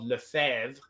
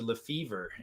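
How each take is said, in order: First: The name is said with French pronunciation. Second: The name is said with English pronunciation. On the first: "a French name called Lefebvre" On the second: "brutally anglicized to Lefever"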